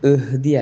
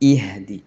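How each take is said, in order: First: The opening 'i' vowel is weak and unclear. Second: The opening 'i' vowel is clear and distinct. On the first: The speaker calls it wrong. "ഇഹ്ദി അല്ല" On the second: The speaker calls it right. "ഹംസക്ക് കെസ്ർ കൊടുത്തിട്ട്"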